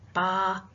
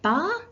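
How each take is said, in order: First: The pitch falls at the end. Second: The pitch rises at the end. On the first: It makes a statement. "a sort of downward sort of prosody intonation" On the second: It asks a question. "when I raise it"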